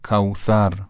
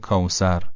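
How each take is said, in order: First: The middle consonant is 'th' with tongue between teeth. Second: The middle consonant is a plain 's' sound. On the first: The speaker calls it right. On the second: The speaker calls it wrong. "به جای"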